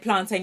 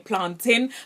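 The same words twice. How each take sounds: First: It is said the non-Jamaican way. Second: It is said the Jamaican way. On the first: The speaker calls it wrong. "you don't say plantain" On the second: The speaker calls it right. "some Jamaicans, ... you say plantain"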